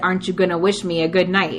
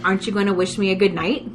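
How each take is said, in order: First: It is said more forcefully and insistently. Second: It is said in a softer, plainer way.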